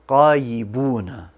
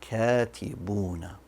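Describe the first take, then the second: First: The word begins with a deep q sound. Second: The word begins with a plain k sound. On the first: The speaker calls it wrong. "I pronounced it as a qaf" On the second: The speaker calls it right. "It should be katibuna"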